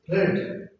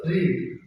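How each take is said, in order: First: "read" with a short e, like "red"; short vowel READ. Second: "read" with a long ee, like "reed"; long vowel READ. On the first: Teacher showing students the changed form, short-vowel "read". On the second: Teacher showing students the present form, long-vowel "read". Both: Shown as a demonstration. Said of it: "this sound has been changed into short sound".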